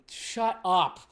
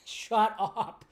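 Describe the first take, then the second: First: Said in the usual way. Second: "Shut up" laughed out higher; giggling "Shut up" at the fans; laughing shut up. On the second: Real, not acted. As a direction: laugh through "Shut up" in disbelief.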